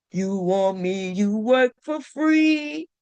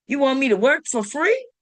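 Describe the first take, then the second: First: Slow sung-like build toward the note; stretched disbelief, slow; slow, drawn-out take. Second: Said in the usual way. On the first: Shown as a demonstration. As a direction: drag every word out slowly, incredulous. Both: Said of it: "Look how I hit that note".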